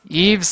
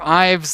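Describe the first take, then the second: First: The vowel sounds like the 'ee' in eve. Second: The vowel sounds like the 'eye' in eyes. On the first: "Eves like uh, nighttime" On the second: "Ives like the thing you see with"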